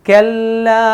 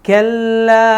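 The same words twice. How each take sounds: The two takes are said the same way.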